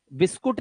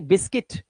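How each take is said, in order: First: बिस्कुट as bis-KOOT, u in the second syllable; wrong Hindi-style form. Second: बिस्किट as BIS-kit; short i in both syllables of बिस्किट; correct English form. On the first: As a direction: say बिस्कुट as the mistake. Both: Shown as a demonstration. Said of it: "बिस्कुट नहीं".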